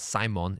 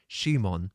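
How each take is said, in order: First: The name begins with a plain 's' sound. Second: The name begins with an 'sh' sound. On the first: The speaker calls it wrong. "it's not Simon" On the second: The speaker calls it right. "it's Shimon"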